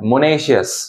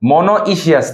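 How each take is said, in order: First: The middle is said as 'ne', three syllables. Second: The middle is said as 'no-i', four syllables. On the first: The speaker calls it right. "উচ্চারণ হচ্ছে মনেশিয়াস" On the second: The speaker calls it wrong. "মনোইশিয়াস না"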